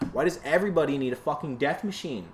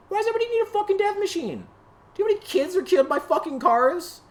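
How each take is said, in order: First: Said in the usual way. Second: Very high, fast, shrill-pitched outraged shout; shrieking yell. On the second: Real, not acted. Ranting about cars at the camera, a shrieking high yell. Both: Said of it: "I'm just yelling at a fucking camera".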